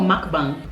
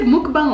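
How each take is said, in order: First: "mukbang" with an uh sound, MUCK-bang; MUCK pronunciation. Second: "mukbang" with an oo sound, MOOK-bang; MOOK pronunciation. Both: Shown as a demonstration. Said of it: "Is it said mukbang or mukbang?".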